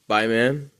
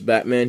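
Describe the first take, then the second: First: The first syllable sounds like 'bye'. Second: The first syllable sounds like 'bat'. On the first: "instead of bye, man" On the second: "every time I say Batman instead of bye, man"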